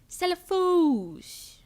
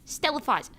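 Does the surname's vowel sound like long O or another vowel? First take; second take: long O; another vowel. First: The surname's vowel is a long O. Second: The surname's vowel is not a long O. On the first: The speaker calls it right. "Foes with an O sound" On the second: The speaker calls it wrong. "It's not Stella Foz"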